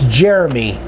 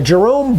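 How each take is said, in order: First: The name is said as Jeremy. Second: The name is said as Jerome. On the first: The speaker calls it right. "It's Jeremy" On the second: The speaker calls it wrong. "I always pronounce this wrong"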